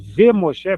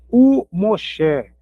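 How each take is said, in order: First: The conjunction before Moshe starts with a 'v' sound. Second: The conjunction before Moshe is a vowel 'oo'. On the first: The speaker calls it wrong. "Em vez de ser V Moshe" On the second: The speaker calls it right. "vou dizer Yosef u Moshe"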